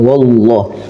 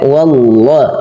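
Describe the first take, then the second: First: The wa sound is thick and heavy. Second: The wa sound is thin and light. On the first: The speaker calls it wrong. "jangan wallah. Nanti wa-nya jadi tebal" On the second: The speaker calls it right. "Wa-nya tipis"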